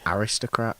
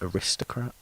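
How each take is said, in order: First: The stress is on the first syllable. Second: The stress is on the second syllable.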